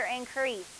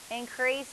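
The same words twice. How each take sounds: First: Increase with the second syllable stressed, as a verb; teacher offers increase with the weight on CREASE. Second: Increase with the first syllable stressed, as a noun; teacher offers Increase with the weight on IN. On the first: Teacher contrasting stress, second syllable stressed. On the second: Teacher contrasting stress, first syllable stressed. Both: Shown as a demonstration. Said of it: "Increase or increase".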